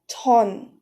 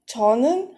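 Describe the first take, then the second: First: It is said in a shortened one-syllable form. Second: It is said in the full two-syllable form. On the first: "when you speak, it usually becomes ton" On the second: "Cha plus topic particle nin becomes chonin"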